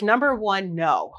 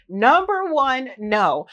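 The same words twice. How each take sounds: First: Said in the usual way. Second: NUMBER ONE drawn out high and loud, then a firm no; slow, raised, emphatic "Number one, no"; emphatic repeat. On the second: Real, not acted. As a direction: stretch "Number one" slowly before landing "no". Repeats her answer for emphasis.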